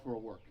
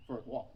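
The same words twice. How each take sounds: First: "work" said by mistake with the /ɝ/ vowel of "work"; slip of the tongue. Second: "walk" said correctly with the /ɔ/ vowel; self-correction. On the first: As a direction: slip and say "work" instead of "walk". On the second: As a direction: fix the slip and say "walk" clearly. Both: Real, not acted. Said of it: "for a walk, not work".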